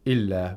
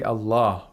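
First: The word begins with an 'i' vowel. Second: The word begins with an 'a' vowel. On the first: The speaker calls it wrong. "We don't say Illa" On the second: The speaker calls it right. "the word Allah has a fatha"

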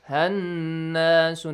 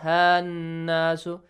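First: The vowel after the h is short. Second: The vowel after the h is stretched long. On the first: The speaker calls it right. "Do not stretch it" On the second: The speaker calls it wrong. "not hannasu"

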